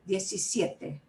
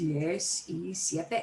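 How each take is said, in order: First: It is said quickly as one flowing word. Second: It is said as three separate, distinct words. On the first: "let it flow and say it really fast" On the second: "three separate words"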